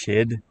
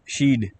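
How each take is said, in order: First: The vowel is a short 'e' sound. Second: The vowel is a long 'ee' sound. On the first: "It's not shed" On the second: "So it's sheed"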